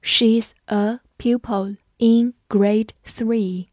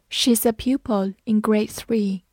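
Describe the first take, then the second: First: Slow, careful read-along. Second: Said in the usual way. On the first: Shown as a demonstration. Teacher reading slowly for students to repeat. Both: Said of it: "我们慢慢来读".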